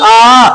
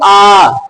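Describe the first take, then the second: First: The vowel is held about twice as long. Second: The vowel is held about three times as long. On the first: "ह्रस्व से दुगना समय दीर्घ को" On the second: "ह्रस्व से तिगना समय प्लुत को"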